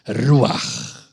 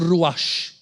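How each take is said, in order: First: The final sound is a throaty r-like sound. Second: The final sound is a soft sh sound. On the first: The speaker calls it right. "tem som de R" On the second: The speaker calls it wrong. "Não pronuncia ruach, porque no hebraico, C H no final não tem som de shim"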